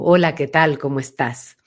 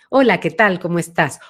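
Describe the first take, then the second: First: The voice has a deep, back resonance. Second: The voice has a medium, central resonance.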